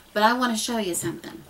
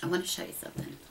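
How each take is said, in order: First: Said in the usual way. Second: Secretive near whisper; hushed. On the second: Shown as a demonstration. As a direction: drop to an unvoiced whisper for I wanna show you something. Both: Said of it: "repeats line, second hushed".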